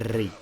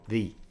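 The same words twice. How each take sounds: First: The r is fully rolled, with a long trill. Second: The r is a light single tap, not trilled. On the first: The speaker calls it wrong. "like the Finnish like or Italian like ri like that. It's not like that" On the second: The speaker calls it right. "It's like ri ri"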